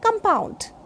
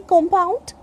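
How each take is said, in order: First: "compound" with a weak UH in the first syllable; A sound in compound. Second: "compound" with a full O in the first syllable; O sound in compound. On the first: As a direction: say "compound" as kum-POUND. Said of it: "If A sound is there". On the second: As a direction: say "compound" as KOM-pound. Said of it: "If O sound is there". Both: Shown as a demonstration.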